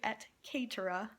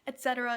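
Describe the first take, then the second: First: It has the classical Latin pronunciation. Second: It has the familiar English pronunciation. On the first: "it's actually et caetera" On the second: "Et cetera is not how you pronounce it in Latin"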